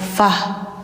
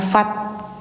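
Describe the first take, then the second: First: The word ends with an h sound. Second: The word ends with a t sound. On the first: The speaker calls it right. "suara taknya jadi H ya" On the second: The speaker calls it wrong.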